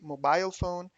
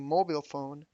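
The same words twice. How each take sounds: First: It is said in a British accent. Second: It is said in an American accent. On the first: "In British, you say" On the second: "In American, you say"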